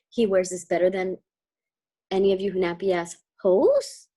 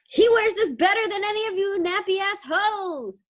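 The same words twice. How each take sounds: First: It is said as a rising question. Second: It is said as a forceful exclamation.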